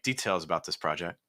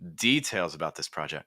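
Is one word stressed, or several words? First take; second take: several words; one word. First: Several words in the phrase carry stress. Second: Only the first word carries stress. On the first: The speaker calls it wrong. "too many stresses" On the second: The speaker calls it right. "Just stress details"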